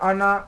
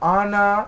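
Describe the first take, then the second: First: The word is said in a plain, normal voice. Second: The word is called out in a raised voice. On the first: "আনা এরম করে ডাকলেই হবে?" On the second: "একটু আওয়াজটাকে উঁচু করে বলবেন কি আনা এরম করে"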